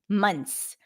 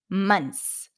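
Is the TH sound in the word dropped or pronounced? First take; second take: dropped; dropped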